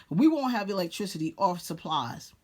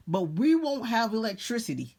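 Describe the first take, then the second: First: Chuckling through the repeated line; laughing repeat. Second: Said in the usual way. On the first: Real, not acted. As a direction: laugh it off as you say it again.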